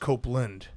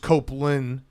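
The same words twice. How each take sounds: First: The name ends with a D sound. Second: The name ends without a D sound. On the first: The team now plays good defense. "we're pronouncing the D now because they do play D" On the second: The team was doing badly. "We we didn't for a while there when they sucked"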